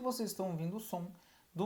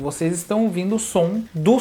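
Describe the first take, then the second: First: The voice is recorded at a quieter level. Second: The voice is recorded at a louder level. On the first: "o volume que ele está captando é muito menor" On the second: "vocês estão ouvindo o som do Sony com fio"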